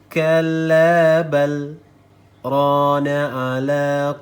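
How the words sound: There is a brief pause right after 'bal'. The speaker calls it right. "kita berhenti sejenak di bacaan setelah balnya"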